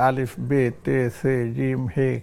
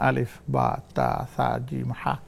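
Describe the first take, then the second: First: The letter names end in an 'e' vowel. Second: The letter names end in an 'a' vowel. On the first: The speaker calls it wrong. "একসময় আমরাও এটা পড়েছি" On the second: The speaker calls it right. "সঠিক উচ্চারণটা হচ্ছে বা"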